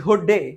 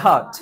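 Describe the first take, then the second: First: Hot with a rounded o, like "hoht"; mispronounced hot. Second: Hot with an open a, like "haat"; corrected pronunciation. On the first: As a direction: drag out the wrong o in hot day. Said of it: "না hot". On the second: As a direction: model hot with an "aa" vowel. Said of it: "it's a আ". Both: Shown as a demonstration.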